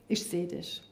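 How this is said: It is said in a sincere, heartfelt way. The child is truly seen and acknowledged. The speaker calls it right. "echt zu sagen"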